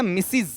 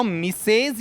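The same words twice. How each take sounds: First: मिसिज with a short i in both syllables; correct pronunciation. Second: मिसेज with a long 'ay' in the second syllable; incorrect pronunciation. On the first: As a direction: say मिसिज as 'mi-siz'. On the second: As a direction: stretch मिसेज into 'mi-sayz'. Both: Shown as a demonstration. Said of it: "मिसेज नहीं होता है".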